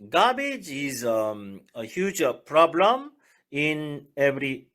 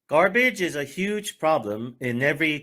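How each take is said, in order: First: It is read slowly with a hesitation. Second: It is read smoothly at a normal speed. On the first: The speaker calls it wrong. "좀 느렸죠?" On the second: The speaker calls it right. "잘 읽었죠?"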